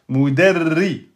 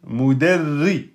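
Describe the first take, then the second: Both takes have the same delivery.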